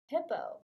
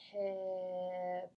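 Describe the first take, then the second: First: The word is said quickly, blended. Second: The word is drawn out slowly.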